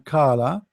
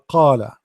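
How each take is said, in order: First: It starts with a plain k sound. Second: It starts with a deep throaty q sound. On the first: The speaker calls it wrong. "this is not correct because kala, when you are say ka, you are pronouncing letter ka" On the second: The speaker calls it right. "qala mean he said"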